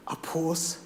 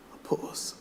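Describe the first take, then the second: First: Said in the usual way. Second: Unvoiced whispered refrain. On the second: Poet closing the poem to the audience, whispered. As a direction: let the line fade to a whisper.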